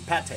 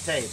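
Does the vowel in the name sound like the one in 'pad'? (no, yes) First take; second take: yes; no. First: The vowel sounds like the one in 'pad'. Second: The vowel does not sound like 'pad'. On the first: The speaker calls it right. "it's actually Pate, you know, like Pad Thai" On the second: The speaker calls it wrong. "I thought it was Pate"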